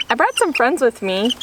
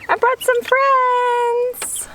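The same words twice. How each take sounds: First: Said in the usual way. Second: Cooing pet talk. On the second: Real, not acted. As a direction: coo it up high like to a pet.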